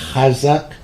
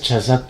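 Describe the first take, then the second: First: It begins with a rough throaty 'h' sound. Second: It begins with a 'ch' sound as in 'church'. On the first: The speaker calls it right. "Es hazak" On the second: The speaker calls it wrong. "Y no es chazak"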